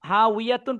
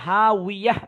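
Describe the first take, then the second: First: The word ends with a full 'tun' syllable. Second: The word ends with a soft h sound. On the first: The speaker calls it wrong. "হা উইয়াতুন পড়বো না" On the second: The speaker calls it right. "হা উইয়াহ পড়বো"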